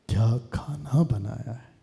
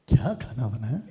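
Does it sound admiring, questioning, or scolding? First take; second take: admiring; questioning. First: It sounds like admiring praise. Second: It sounds like a plain question.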